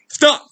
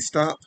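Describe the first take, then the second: First: The command sounds forceful and aggressive. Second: The command sounds firm but fairly calm. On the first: A stronger warning because the person kept coming. "I'm being more aggressive now" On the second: A first warning to the approaching person. "Like I might say stop"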